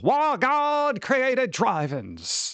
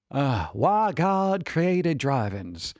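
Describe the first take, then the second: First: High, slow preacher voice; evangelist preacher. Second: Said in the usual way. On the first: Shown as a demonstration. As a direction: proclaim it like a TV evangelist. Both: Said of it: "You gotta say it like an, an evangelist".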